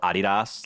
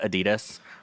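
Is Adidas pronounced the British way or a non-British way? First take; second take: British; non-British. First: It is pronounced in the British way. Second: It is pronounced in a non-British way. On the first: The speaker calls it wrong. "like the Brits do, which is wrong" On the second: The speaker calls it right. "like c- is correct"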